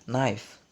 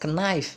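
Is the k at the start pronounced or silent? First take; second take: silent; pronounced. First: The initial k sound is silent. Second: The initial k sound is pronounced. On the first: The speaker calls it right. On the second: The speaker calls it wrong.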